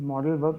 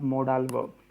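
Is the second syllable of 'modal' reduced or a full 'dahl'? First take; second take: reduced; full 'dahl'. First: The second syllable of modal is short and reduced. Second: The second syllable of modal is a full 'dahl'. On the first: The speaker calls it right. "Pronunciation is मॉडेल verb" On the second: The speaker calls it wrong. "Not मोडाल verb"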